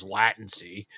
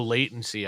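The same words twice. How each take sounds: First: Latency with a short "a", as in "lat"; Corey's pronunciation of latency. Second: Said in the usual way. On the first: Retold or imitated. Co-host quoting how a friend says it, latency as LAT-en-see. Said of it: "or as Corey says". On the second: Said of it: "or as Corey says, latency".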